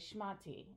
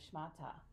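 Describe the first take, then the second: First: The word ends in an 'ee' sound. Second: The word ends in an 'ah' sound. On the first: This is how it was said in Boston. "so we would say shmati" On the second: This is how it is said elsewhere. "instead of shmata"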